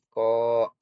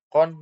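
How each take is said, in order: First: The syllable ends on a vowel. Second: The syllable ends with an n sound. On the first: The reader stops on this word. "menjadi ko" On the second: The word is read without stopping. "dari kon"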